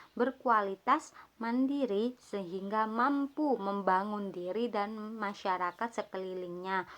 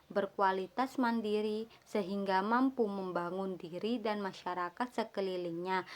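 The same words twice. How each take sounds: Both takes have the same delivery.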